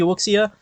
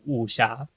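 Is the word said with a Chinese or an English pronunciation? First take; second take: English; Chinese. First: The word is said with an English pronunciation. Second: The word is said with a Chinese pronunciation. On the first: "English says it should be Wuxia" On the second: "Chinese says it's Wuxia"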